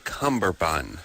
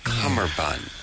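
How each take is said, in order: First: The first part is said with a B sound. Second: The first part is said without a B sound. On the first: This is how many people commonly say it. The speaker calls it wrong. "you would say cummerbund" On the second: This is how the word actually goes. The speaker calls it right. "it's it's cummerbund"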